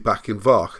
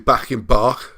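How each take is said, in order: First: The last word starts with a V sound. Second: The last word starts with a B sound. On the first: The speaker calls it right. "You say back in Vach, a B becomes an F. Or a V sound" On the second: The speaker calls it wrong. "you don't say back in Bach, because that sounds a bit weird and difficult to say"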